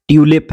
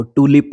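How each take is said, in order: First: ट्यूलिप with a "y" glide; "yoo" sound. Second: टूलिप with no glide; American pronunciation. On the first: Teacher gives another example word, British "yoo" pronunciation. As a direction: say ट्यूलिप as "TYOO-lip". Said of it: "जब भी यू की sound आएगी". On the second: Teacher shows what they read, American pronunciation. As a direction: say टूलिप as "TOO-lip". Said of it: "वो टूलिप पढ़ते हैं". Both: Shown as a demonstration.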